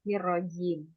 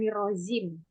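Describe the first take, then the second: First: The middle consonant is pronounced as a 'j'. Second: The middle consonant is pronounced as a 'z'. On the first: The speaker calls it right. "tapi nirojim" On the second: The speaker calls it wrong. "bukan nirozim ya, be- beda nanti artinya"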